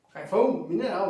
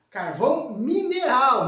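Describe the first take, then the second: First: Said in the usual way. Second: "mineral" louder and stretched out slowly; stress on MINERAL. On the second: Real, not acted. Teacher telling students it is not barbecue coal, stressed "mineral". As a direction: hit "mineral" hard, drawing it out.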